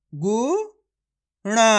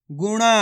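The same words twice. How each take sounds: First: Drawn-out गुणा, split into syllables; slow syllable reading. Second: Said in the usual way. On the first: Shown as a demonstration. Teacher sounds out गुणा slowly for kids. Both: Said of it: "इस शब्द को आपको खुद से पढ़ना है".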